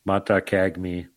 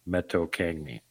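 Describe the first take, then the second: First: Matakagmi said slowly as MAH-tah-kag-mee; Matakagmi pronounced slowly. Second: Metokangmi said as meh-TOH-kahng-mee, falling; Metokangmi pronounced. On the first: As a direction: spell out Matakagmi slowly, open a vowels. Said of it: "close to the Yeti name". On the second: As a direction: Metokangmi with nasal ng, soft fall. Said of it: "really close to". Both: Shown as a demonstration.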